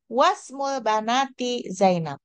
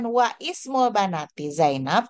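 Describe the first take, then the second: First: The vowel of 'ismul' is dropped and linked. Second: The vowel of 'ismul' is pronounced separately. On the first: The speaker calls it right. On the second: The speaker calls it wrong. "bacanya itu kan bukan"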